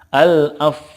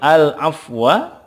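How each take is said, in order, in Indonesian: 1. Kata itu berakhir pada konsonan yang samar dan membulat. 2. Kata itu berakhir dengan vokal pendek.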